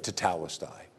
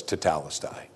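First: Tetelestai barely above a breath, very soft; dying man's final whisper-soft word; hushed last words. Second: Tetelestai said low and hushed, te-TE-le-stai; Greek word. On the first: Acted. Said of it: "Right before he gave up his spirit". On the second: Shown as a demonstration. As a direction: breathe out Tetelestai softly. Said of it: "one of the great things he said was".

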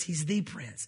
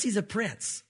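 First: The stressed, set apart from a. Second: Said in the usual way. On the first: Shown as a demonstration. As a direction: lean on the, he's the prince. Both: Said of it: "but he's not just a prince".

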